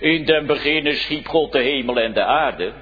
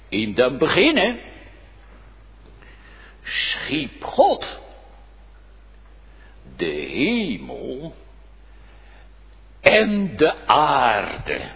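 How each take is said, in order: First: The sentence is read quickly and casually. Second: The sentence is read slowly with marked emphasis. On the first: The verse is skimmed without attention to its meaning. The speaker calls it wrong. "je niet zomaar eventjes moet lezen" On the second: The earth is created too, not only heaven. The speaker calls it right. "Maar je moet lezen"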